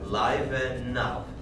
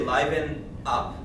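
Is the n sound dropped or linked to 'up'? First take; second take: linked; dropped. First: The n sound joins 'up' as 'nup'. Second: The n sound is dropped before 'up'. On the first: The speaker calls it right. "this becomes nup" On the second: The speaker calls it wrong. "Don't say liven up, because then you'll leave out your N"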